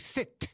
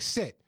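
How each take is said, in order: First: The final T is crisp and strongly pronounced. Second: The final T is soft and casual. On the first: "I'm really going to pronounce that T at the end" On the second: "I'm not going to start out by going sit"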